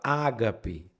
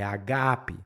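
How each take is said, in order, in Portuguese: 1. A tônica está na primeira sílaba. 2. A tônica está na segunda sílaba. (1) "Você não fala ágape" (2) "a tônica no original está ali no segundo alfa"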